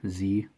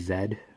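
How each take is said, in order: First: It is said the American way, zee. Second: It is said the Canadian way, zed.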